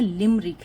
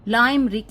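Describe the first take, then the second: First: The first vowel is a short 'i' sound. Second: The first vowel is a long 'ai' sound. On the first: The speaker calls it right. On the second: The speaker calls it wrong.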